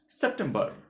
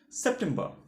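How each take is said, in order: No difference in how they are said.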